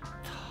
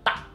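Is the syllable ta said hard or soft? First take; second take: soft; hard. First: The syllable is spoken with a soft, gentle attack. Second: The syllable is spoken with a hard, forceful attack. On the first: The speaker calls it right. "tapi ta" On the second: The speaker calls it wrong. "bukan ta, bukan bukan yang keras ya"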